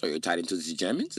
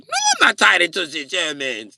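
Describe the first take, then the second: First: Mock German accent, rising at the end; accusing question, German accent. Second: High, loud mock German protest, falling at the end; loud denial, German accent. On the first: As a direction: probe suspiciously in a German accent. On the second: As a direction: deny it loudly in a German accent. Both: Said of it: "Why are you doing the German accent".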